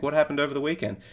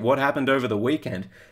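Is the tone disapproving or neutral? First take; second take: neutral; disapproving. First: The question sounds calm, neutral and curious. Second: The question sounds disapproving and judgmental. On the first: The result is simply something to be curious about. The speaker calls it right. "I am trying to be as stoic as possible" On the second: The weight gain is seen as a failure. The speaker calls it wrong. "There's such positive and negative connotations that come with each sentence"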